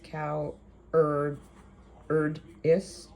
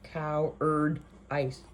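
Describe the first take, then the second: First: The final syllable sounds like 'is'. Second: The final syllable sounds like 'ice'. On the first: The speaker calls it right. "how to say cowardice" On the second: The speaker calls it wrong.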